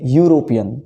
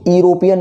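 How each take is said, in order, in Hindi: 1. शब्द की शुरुआत 'you' की ध्वनि से होती है। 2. शब्द की शुरुआत सादे स्वर की ध्वनि से होती है। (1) "the sound is your यू" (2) "यूरोपियन नहीं"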